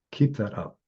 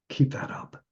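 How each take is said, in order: First: Said in the usual way. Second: Hushed whisper. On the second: Retold or imitated. Last words to dying friend.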